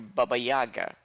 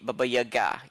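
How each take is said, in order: First: The stress is on the first syllables. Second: The stress is not on the first syllables. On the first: The speaker calls it wrong. "put the stress on the on the fir- on the first syllables" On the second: The speaker calls it right. "you never hear"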